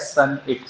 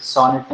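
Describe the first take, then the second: First: सनइट as "sun-it", short first vowel; correct pronunciation. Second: सॉनेट with an "aw" first vowel, "saw-net"; wrong pronunciation. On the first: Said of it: "इसका pronunciation क्या है?". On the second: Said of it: "सॉनेट नहीं है". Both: Shown as a demonstration.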